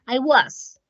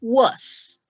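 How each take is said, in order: First: American was. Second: British was. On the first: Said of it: "en Estados Unidos usualmente se utiliza was". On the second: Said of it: "en Inglaterra específicamente, ellos van a decir". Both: Shown as a demonstration.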